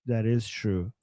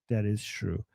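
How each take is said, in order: Both takes have the same delivery.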